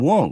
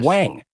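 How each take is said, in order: First: The name has a rounded 'aw' vowel. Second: The name has an open 'ah' vowel. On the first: This is how the senator says his own name. The speaker calls it right. "I pronounce his name correctly too" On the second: This is how most people said the name. The speaker calls it wrong. "everyone was calling him"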